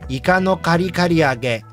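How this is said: It is pronounced with Japanese sounds. The speaker calls it right. "say these things the right way first"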